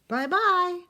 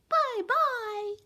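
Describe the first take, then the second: First: It is said in a middle-sized voice. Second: It is said in a high squeaky voice.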